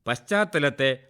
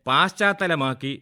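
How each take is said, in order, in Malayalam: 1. ആദ്യ സ്വരം ഹ്രസ്വമാണ്. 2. ആദ്യ സ്വരം നീട്ടിയിരിക്കുന്നു.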